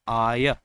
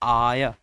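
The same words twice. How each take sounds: The two takes are said the same way.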